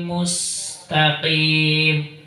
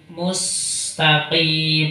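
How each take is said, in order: The two takes are said the same way.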